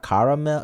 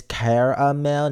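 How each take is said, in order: First: "caramel" as CAR-uh-mel; rejected pronunciation. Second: "caramel" as CARE-uh-mel, drawn out slowly; insisted pronunciation. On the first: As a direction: open "caramel" like the word car. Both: Shown as a demonstration. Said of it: "not caramel".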